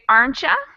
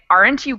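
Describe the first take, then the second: First: The word 'you' is reduced to 'ya' and linked. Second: The word 'you' is said fully and separately. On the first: "I would say, aren't ya" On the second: "instead of saying"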